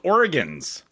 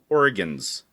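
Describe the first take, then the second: First: The word is said with two syllables. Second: The word is said with three syllables. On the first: The speaker calls it right. "There, you you got it that time" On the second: The speaker calls it wrong. "you are adding an extra syllable and calling it Oregons"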